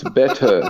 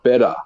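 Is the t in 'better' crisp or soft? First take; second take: crisp; soft. First: The t in the middle is crisp and clear. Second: The t in the middle is soft, like d. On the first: The speaker calls it right. "you never use your T's properly. It's better" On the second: The speaker calls it wrong. "not better"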